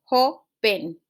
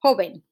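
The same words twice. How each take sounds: First: "joven" split into JO, then ven; teacher's broken-up "joven", first syllable stressed. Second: Said in the usual way. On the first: Shown as a demonstration. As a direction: sound out "joven" with a gap after stressed JO. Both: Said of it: "Same for the next one".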